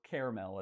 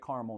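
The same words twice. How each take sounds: First: It is said the non-Arkansas way. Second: It is said the Arkansas way.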